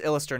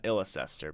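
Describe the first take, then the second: First: The middle syllable is dropped from the name. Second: Every syllable of the spelling is pronounced. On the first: The speaker calls it right. "now it's pronounced Illister" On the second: The speaker calls it wrong. "not Illicester"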